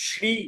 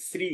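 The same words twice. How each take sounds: First: শ্রী with palatal "sh" and long ee, "shree"; Sanskrit pronunciation. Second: শ্রী said with a hissed s, "sri"; everyday pronunciation. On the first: Teacher shows the Sanskrit form, correct pronunciation. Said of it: "সংস্কৃত যখন উচ্চারণ করব". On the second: Teacher shows what we usually say, everyday pronunciation. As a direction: say শ্রী as "sri", not "shree". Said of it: "আমরা সাধারণত বলে থাকি". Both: Shown as a demonstration.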